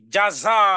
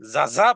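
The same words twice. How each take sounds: First: The word begins with a j sound. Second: The word begins with a z sound. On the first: It means reward. The speaker calls it right. "আর যদি জাযা" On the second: It means thanks. The speaker calls it wrong. "যদি জাযা পড়েন তাহলে হবে ধন্যবাদ"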